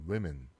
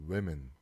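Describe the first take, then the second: The two takes are said the same way.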